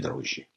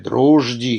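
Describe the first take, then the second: First: The middle consonants sound like one long zh. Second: The middle consonants sound like zh followed by d. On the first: This is a newer pronunciation. "два новых «дрожжи»" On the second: This is the old pronunciation. "старое «дрожди»"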